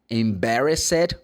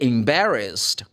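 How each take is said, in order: First: The ending -ed is a separate spoken syllable. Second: The ending -ed is not a separate syllable. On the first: The speaker calls it wrong. "I did not say" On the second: The speaker calls it right. "You say embarrassed"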